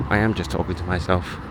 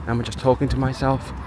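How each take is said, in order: First: Low, softer statement leaning on "am"; quiet low admission with weight on "am"; resigned self-answer. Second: Wondering question, lifting "talking"; musing question to oneself; self-directed question. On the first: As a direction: answer yourself, stressing "am", pitch dropped. Answers own question. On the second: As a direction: ask yourself, putting weight on "talking". Asks self, then answers. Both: Real, not acted.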